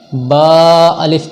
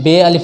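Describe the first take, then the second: First: The letter is named 'ba', Arabic style. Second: The letter is named 'be', Urdu style. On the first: The speaker calls it right. "अरबी ही लहजे में पढ़ना है" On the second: The speaker calls it wrong. "बे अलिफ नहीं कहना है"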